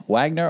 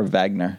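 First: Wagner with an English W sound. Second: Wagner begun with a V sound; German W as V. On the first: Co-host weighing up the name, English W. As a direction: say Wagner starting with a plain W. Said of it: "with a German W". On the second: Co-host asking about the name, W said as V. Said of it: "so a V". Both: Shown as a demonstration.

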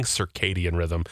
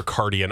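First: Slow, low "Circadian" as sur-KAY-dian; measured "Circadian", KAY in the middle; correct circadian. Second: "circadian" said as sur-CAR-dian; low "circadian" with extra R; wrong circadian. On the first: Host conceding to Jeopardy, "Circadian" as sur-KAY-dian. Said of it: "they probably know what they're saying". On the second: Host rejecting old version, "circadian" as sur-CAR-dian. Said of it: "not circadian". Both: Shown as a demonstration.

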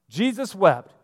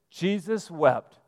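First: Said in the usual way. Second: Jesus wept said slowly, each word weighted; slow, weighty quote. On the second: Shown as a demonstration. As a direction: let Jesus wept land slowly and solemnly. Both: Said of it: "That is your shortest Bible verse".

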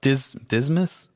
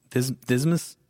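The two takes are said the same way.

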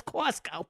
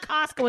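First: "Costco" with a rounded aw, as "cawst-co"; Jersey vowel. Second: "Costco" with an open ah, as "cahst-co"; open vowel. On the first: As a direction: give "Costco" the aw of dog. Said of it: "It's not Costco, it's Costco". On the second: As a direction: say "Costco" with the ah of father. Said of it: "It's not Costco". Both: Shown as a demonstration.

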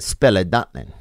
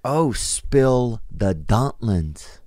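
First: "Spell a dumpling" run together as a misheard phrase; imitated mispronunciation. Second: Very slow, word by word; dawning realization. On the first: Masseuse offering a service to the client, imitated mispronunciation of "Spell a dumpling". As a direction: say "Spell a dumpling" with spill turned into spell. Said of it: "and she said". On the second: Retold or imitated. Comic finally working out what the lady meant, slow dawning realization. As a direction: draw out each word as the phrase finally makes sense. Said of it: "And then I'm like".

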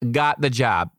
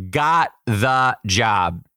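First: Said in the usual way. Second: Slow, loud triumphant reveal; drawn-out victory line. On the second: Real, not acted. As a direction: savor every word of the win.

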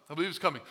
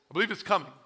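First: Coming leaned on, softer still, falling; stress on coming. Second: Believe leaned on, softer; stress on believe. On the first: Preacher repeats the warning, stress on coming. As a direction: hit the word coming and let it drop. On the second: Preacher warns the church, stress on believe. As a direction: press on the word believe, then let it fall. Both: Shown as a demonstration.

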